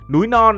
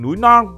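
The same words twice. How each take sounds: First: The words are said with no extra sound. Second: The words are said with an extra added sound.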